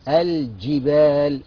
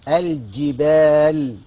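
No difference in how they are said.

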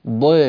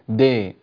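First: The d sound is heavy and emphatic. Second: The d sound is light and plain. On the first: The speaker calls it right. "والضاد مفخمة ضي" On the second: The speaker calls it wrong. "ولا تقول دي"

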